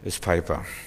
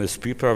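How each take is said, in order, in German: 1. Der Name wird auf die englische Art ausgesprochen. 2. Der Name wird auf die deutsche Art ausgesprochen. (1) "wenn Engländer lesen" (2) "Wenn Deutsche lesen"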